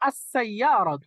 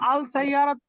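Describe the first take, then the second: First: The L blends into a doubled S sound. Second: The article is said with a clear L. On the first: The speaker calls it right. "এটা উচ্চারণটা হবে আস-সাইয়ারাতু" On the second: The speaker calls it wrong. "আপনারা যারা আল সাইয়ারাত বলতেছেন"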